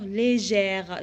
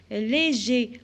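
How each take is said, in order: First: "légère" said slowly, stretching the open è before the final r; feminine form shown. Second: "Léger" said clearly, ending on a closed é sound; teacher models "Léger" with a crisp final é; masculine form shown. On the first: Teacher shows pupils the feminine "légère", said slowly with an open è. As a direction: draw out the è in "légère" for the class. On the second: Teacher shows pupils the masculine "Léger", said clearly. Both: Shown as a demonstration. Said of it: "J'ajoute le E du féminin plus l'accent grave".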